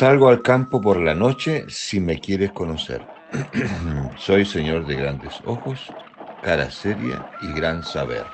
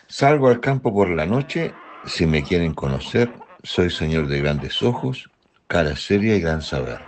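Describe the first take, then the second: First: It is read at a noticeably slower pace. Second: It is read at a normal, faster pace.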